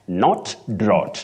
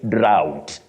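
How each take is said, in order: First: The vowel stays as one sound. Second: The vowel glides between two sounds. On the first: The speaker calls it wrong. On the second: The speaker calls it right. "the diphthong, ow"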